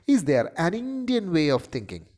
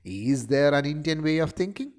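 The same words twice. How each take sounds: First: "an" stretched and pitched up within the question; stress on AN. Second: "Is" stressed at the start, question rising at the end. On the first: Lecturer showing the next version, stress on "an". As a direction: lean hard on "an" before "Indian". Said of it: "italics is put in an". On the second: Lecturer reading the first version of the line, stress on "Is". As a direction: hit the opening word "Is", then lift into a question. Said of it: "the stress is on is". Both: Shown as a demonstration.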